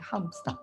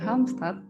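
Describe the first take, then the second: First: The d is silent, with a break after Halm. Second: The d is pronounced, read as spelled. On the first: This is how Swedes say the name. "D-nya silent gitu, nggak kedengeran. Terus ada penekanan dan pemotongan di antara Halm dan Stad-nya" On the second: This is how the name is written. "tulisannya Halmstad adalah Halmstad"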